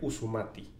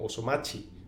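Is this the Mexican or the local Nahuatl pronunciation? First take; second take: local; Mexican. First: It is said in local Nahuatl, with u and t. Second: It is said in Mexican Nahuatl, with o and ch.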